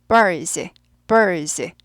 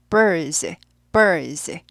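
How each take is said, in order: No difference in how they are said.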